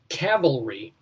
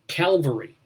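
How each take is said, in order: First: The word begins with the sounds 'cav'. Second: The word begins with the sounds 'cal'. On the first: Soldiers on horseback. The speaker calls it right. "she mispronounces cavalry" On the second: The hill of the crucifixion. The speaker calls it wrong.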